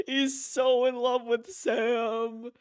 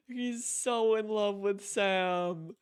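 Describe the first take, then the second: First: Slow words through a laugh, higher. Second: Said in the usual way. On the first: Real, not acted. Player amused by Higgs's love for Sam, laughing. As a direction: giggle it out slowly.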